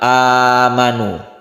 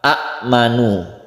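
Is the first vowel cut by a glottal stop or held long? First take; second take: held long; glottal stop. First: The first vowel is held long, without a stop. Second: A glottal stop follows the short first vowel. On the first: This is how the word is actually read. "itu sudah diganti menjadi mad" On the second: This is the original form of the word. "asal katanya itu adalah a'manu"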